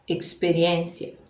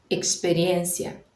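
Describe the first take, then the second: Both takes have the same delivery.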